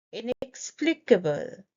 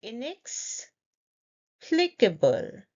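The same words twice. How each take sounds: First: Said in the usual way. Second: "Inexplicable" slowly, pause after "inex"; in two parts. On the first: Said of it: "say the full word with confidence". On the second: Shown as a demonstration. Teacher leading say it with me, slow in parts. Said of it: "say it in parts".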